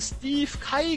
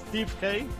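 First: The surname is pronounced the German way. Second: The surname is pronounced the English way. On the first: The speaker calls it wrong. "Ich habe vorhin den Kollegen Steve Kai genannt" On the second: The speaker calls it right. "Dann werde ich das einfach mal Englisch aussprechen"

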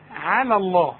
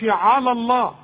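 First: The first word is pronounced light and thin. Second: The first word is pronounced heavy and emphatic. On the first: The speaker calls it right. "الكلمه مرققه" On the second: The speaker calls it wrong. "فما تقولش على الله"

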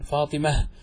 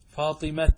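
First: The word ends softly with an h sound. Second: The word ends with a clear t sound. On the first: "وإن كان غير ذلك وقف عليه بالها" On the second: "وقل الوقف على المفرد بالتاء ... كما يقوله بعض العجم"

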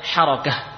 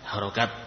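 First: The word ends in an h sound. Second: The word ends in a t sound. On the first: The speaker calls it right. "Sebenarnya apa? Harokah. Ya, bukan harokat" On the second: The speaker calls it wrong. "kita mungkin menyebutnya harokat"

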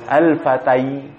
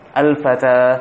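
First: The word ends with an 'ai' sound. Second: The word ends with a plain long 'a'. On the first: The final letter is read as a ya. The speaker calls it wrong. "karena kalau misalkan ini adalah huruf ya, niscaya lafaznya tidak al-fata, akan tapi lafaznya apa? Al-fatai" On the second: The final letter is read as an alif. The speaker calls it right. "Tapi realitanya kita ngelafazinnya al-fata"

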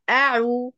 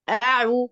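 The two takes are said the same way.

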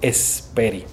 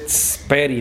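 First: An e vowel comes before the s. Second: The word starts directly with the s. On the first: The speaker calls it right. "sino esperi" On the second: The speaker calls it wrong. "no dice speri"

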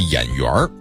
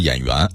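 First: The word ends with an r-colored erhua sound. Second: The word ends without any r-colored sound. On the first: The speaker calls it right. "这得加耳音啊" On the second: The speaker calls it wrong. "这不能说演员"

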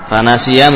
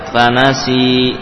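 First: The word ends with a short vowel after y. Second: The word ends on a long drawn-out i sound. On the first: The reading continues without stopping. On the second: The reader stops on this word.

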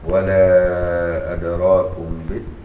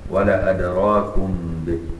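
First: The vowel after the first 'l' is long. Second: The vowel after the first 'l' is short. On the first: This is the reading shared with the other readers. "له وجه زي باقي القراء" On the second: This is a reading special to one transmitter. "وله وجه خاص بي ولا أدراكم به يعني مفيش ألف"

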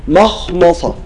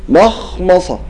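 No difference in how they are said.

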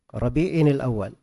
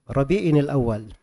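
The two takes are said the same way.

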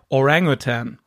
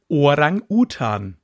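First: The word is pronounced the English way. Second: The word is pronounced the German way. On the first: "im Englischen sagst du halt eher Orangutan" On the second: "im Deutschen sagt man Orang-Utan"

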